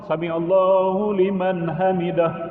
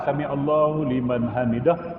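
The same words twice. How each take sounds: First: It is said loudly. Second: It is said quietly.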